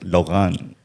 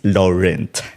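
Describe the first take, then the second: First: The name is said with French pronunciation. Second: The name is said with English pronunciation. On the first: "in his uh, native probably sounds like" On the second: "in English is"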